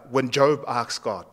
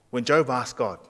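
Both takes have the same delivery.

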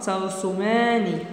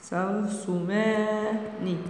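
First: Said in the usual way. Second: "ترسمان" softly stretched into syllables; slow dictation. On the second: Shown as a demonstration. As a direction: hold "ما" in "ترسمان", then a separate final "ن".

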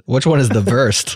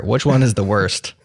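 First: Put-on German accent, "worst" as "vorst". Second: Said in the usual way. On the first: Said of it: "that's a standard German accent".

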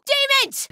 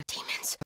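First: High, loud yell of warning; urgent full-voiced battle cry; shouted alarm. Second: Urgent, hushed whisper; very soft, voiceless stealth callout; whispered alarm. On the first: Alarm call, shouted take. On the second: Acted. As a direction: warn the others without being heard. Same alarm, whispered take.

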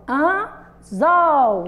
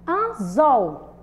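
First: "anzol" pulled apart, with a long loud ZOL; teacher's stretched "anzol", ZOL clearly strongest; exaggerated final stress. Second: "Anzol" in two parts, AN then ZOL; measured "Anzol", small gap before ZOL; split into syllables. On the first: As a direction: hold AN, pause, then swell on ZOL in "anzol". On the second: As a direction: separate "Anzol" with a firm final ZOL. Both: Shown as a demonstration. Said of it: "o zol é mais forte".

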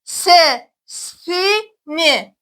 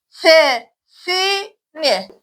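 First: "Sesini" stretched syllable by syllable, very slowly. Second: "Sesini" drawn out again, very slow and even; very slow syllables. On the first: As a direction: spell out "Sesini" very slowly, each syllable long. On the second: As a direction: stretch every syllable of "Sesini" very slowly. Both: Shown as a demonstration. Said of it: "Arkadaşlar tekrar okuyalım".

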